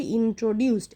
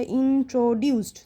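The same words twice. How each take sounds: First: "ইন্ট্রোডিউসড" joined up as one word; whole word together. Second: "ইন্ট্রোডিউসড" in three parts, in, tro, duced; separated syllables. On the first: Teacher showing pupils the whole of "ইন্ট্রোডিউসড", said in one go. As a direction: run the syllables of "ইন্ট্রোডিউসড" together. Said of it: "পুরোটা একসাথে কীভাবে বলছি". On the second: Teacher showing pupils syllable division, "ইন্ট্রোডিউসড" said in separate parts. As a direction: split "ইন্ট্রোডিউসড" into spaced, stretched syllables. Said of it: "এটা আলাদাই উচ্চারণ হচ্ছে". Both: Shown as a demonstration.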